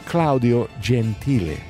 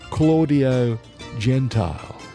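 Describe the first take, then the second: First: The name is said with Italian pronunciation. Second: The name is said with English pronunciation. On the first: The speaker calls it right. "His name was" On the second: The speaker calls it wrong. "they called him"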